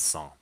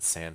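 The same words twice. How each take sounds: First: The word is pronounced with a French sound. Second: The word is pronounced with an English sound. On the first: The speaker calls it right. "It's sans, like in French" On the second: The speaker calls it wrong. "some people pronounce it sans serif. I'm pretty sure that's incorrect"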